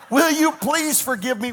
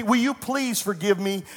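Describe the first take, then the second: First: Breaking into a laugh mid-plea; laughing apology. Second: Said in the usual way. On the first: Retold or imitated. Retold plea to the stranger, laughing through it. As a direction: laugh through "will you please forgive me".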